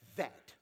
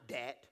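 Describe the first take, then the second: First: The word begins with a 'th' sound. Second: The word begins with a 'd' sound. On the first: The speaker calls it right. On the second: The speaker calls it wrong. "Not dat"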